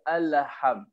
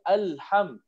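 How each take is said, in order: First: The L is followed by an added vowel. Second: The L closes the syllable with no vowel. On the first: The speaker calls it wrong. "tak perasan dia baca Alham. Dia membaris" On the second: The speaker calls it right. "Asalnya Alham"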